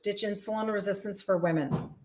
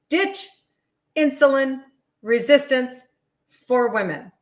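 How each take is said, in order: First: The phrase is said quickly. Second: The phrase is said more slowly. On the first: The speaker calls it wrong. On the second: The speaker calls it right.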